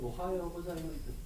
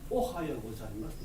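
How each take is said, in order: First: Every syllable is said with even, equal weight. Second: Some syllables are stressed strongly, others weakly. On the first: The speaker calls it right. "肯定のリズムしかない" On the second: The speaker calls it wrong. "って言わないですね"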